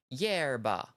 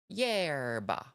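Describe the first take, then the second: Both takes have the same delivery.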